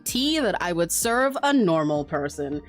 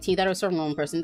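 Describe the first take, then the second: First: It is said in a silly, mocking put-on voice. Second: It is said in a plain, ordinary speaking voice. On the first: Someone else repeats it to tease the speaker. "he just repeats them in the silly Tom voice" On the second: The speaker is saying something silly. "Like saying like"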